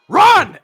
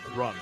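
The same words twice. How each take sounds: First: It is said louder. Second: It is said at normal, softer volume.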